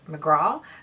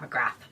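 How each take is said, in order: First: The name ends in a plain vowel sound. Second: The name ends in a 'th' sound. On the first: This is how it is said in Ireland. "here in Ireland we would say McGraw" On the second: This is probably how the owner says it. "when in fact it's probably Pat McGrath"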